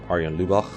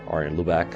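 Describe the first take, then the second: First: The name is said with Dutch pronunciation. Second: The name is said with English pronunciation.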